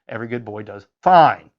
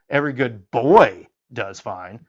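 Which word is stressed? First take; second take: fine; boy. First: The stress falls on the word fine. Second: The stress falls on the word boy.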